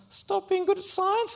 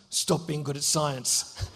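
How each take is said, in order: First: Put-on high, meek kid repeating the order; squeaky echo. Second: Low, slow menacing growl of a schoolboy bully. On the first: Scared boy meekly repeats the bully's words, high. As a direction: parrot it back up high and timid. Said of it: "And I'm like". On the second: Retold or imitated. Bully orders the boy to stop, low and slow. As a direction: lean in low and slow, threatening. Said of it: "He goes".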